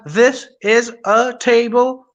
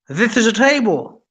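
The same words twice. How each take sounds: First: Each word is said separately with breaks. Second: The words flow together without breaks. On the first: The speaker calls it wrong. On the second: The speaker calls it right.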